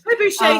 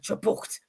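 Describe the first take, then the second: First: The word ends softly with a 'shay' sound. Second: The word ends sharply with a 't' sound. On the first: It sounds gentle. "sounds very gentle as it kills you" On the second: It sounds more violent. "That sounds more violent"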